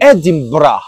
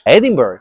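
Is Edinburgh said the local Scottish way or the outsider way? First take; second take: local Scottish; outsider. First: The name is said in the local Scottish pronunciation. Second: The name is said in an outsider's pronunciation. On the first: The speaker calls it right. "aquí se dice Edinburgh" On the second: The speaker calls it wrong. "don't call it that way"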